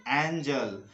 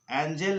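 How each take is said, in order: First: एंजल ending in "jul", falling; correct schwa. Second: एंजल ending in a clear "jel", pitched up; mistaken e vowel. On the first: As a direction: model एंजल with "uh" before the l. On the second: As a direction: quote the wrong एंजल as "en-jel". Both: Shown as a demonstration. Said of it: "एंजल नहीं".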